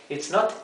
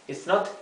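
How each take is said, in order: No difference in how they are said.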